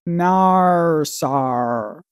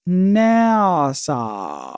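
First: It is said in an Australian accent, like 'Narsar'. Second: It is said in a plain, non-Australian accent.

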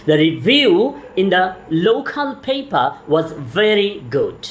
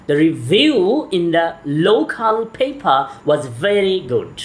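The two takes are said the same way.

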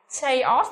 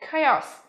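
First: The word begins with a ch sound. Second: The word begins with a k sound. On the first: The speaker calls it wrong. "Lưu ý không phát âm là chờ như là chaos này" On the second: The speaker calls it right. "mà phải là gì?"

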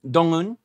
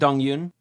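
First: The second syllable is 'un' without a y sound. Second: The second syllable is 'yoon' with a y sound. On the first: The speaker calls it right. "so it's just Un" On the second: The speaker calls it wrong. "I'm saying Yoon"

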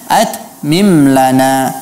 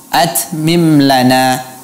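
First: The 't' is clean without any hiss. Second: The 't' has a hissing release. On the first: The speaker calls it right. "seharusnya ... tidak perlu ada safir atau desisnya" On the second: The speaker calls it wrong. "ini kedengaran ada safir pada huruf ta"

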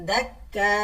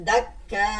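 No difference in how they are said.

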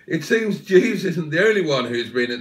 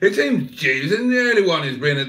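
First: It is read in his ordinary natural voice. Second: It is read in a put-on character voice.

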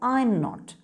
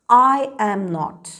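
First: I and am merge into one syllable before not. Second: Three full words are said: I, am, not. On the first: "when you want to use the short form, you say" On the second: "how you should pronounce the long forms"

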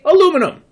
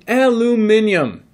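First: It is said in an American accent. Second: It is said in a British accent.

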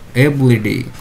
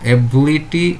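First: The consonant before the ending is a soft D. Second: The consonant before the ending is a clear T.

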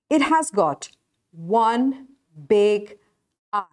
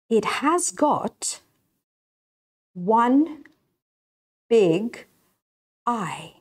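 First: The sentence is spoken at a faster pace. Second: The sentence is spoken at a slower pace.

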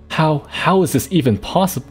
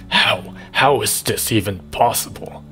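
First: It is said in his normal voice. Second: It is said in an evil vampire voice.

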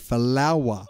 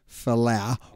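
First: The name ends with an extra 'wa' syllable. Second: The name ends without an extra 'wa' syllable. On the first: The speaker calls it right. "we say Falawa" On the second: The speaker calls it wrong. "we don't say Falau"

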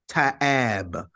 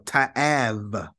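First: The word ends with a B sound. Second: The word ends with a V sound. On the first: "you can also pronounce it as a B sound. So some will read this as ta'ab" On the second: "technically it makes a V sound"

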